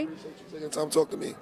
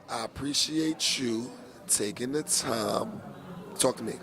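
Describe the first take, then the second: First: It is said at a normal pace. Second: It is said slowly.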